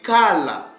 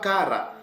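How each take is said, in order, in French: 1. La consonne du milieu est un son L. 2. La consonne du milieu est un son R. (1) "ça se lit kala" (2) "ce mot-là ne se lit pas kara"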